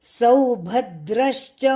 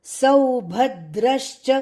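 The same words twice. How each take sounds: No difference in how they are said.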